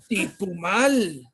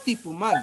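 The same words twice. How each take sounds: First: The word is said strongly, with force. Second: The word is said softly, without force. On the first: The speaker calls it right. "Eso, así fuerte" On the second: The speaker calls it wrong. "No, no tipumal"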